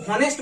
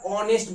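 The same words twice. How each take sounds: First: Teacher showing learners the wrong form, "হনেস্ট" with an audible h; H sounded. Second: "অনেস্ট" starting straight on an open o vowel; silent H. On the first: Teacher warns what we never say, "হনেস্ট" with the h sounded. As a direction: say "হনেস্ট" with a breathed h at the start. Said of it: "হনেস্ট বলি না আমরা কখনো". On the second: Teacher shows what we actually say, "অনেস্ট" with silent h. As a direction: say "অনেস্ট" slowly with no h. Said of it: "আমরা অনেস্ট বলছি". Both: Shown as a demonstration.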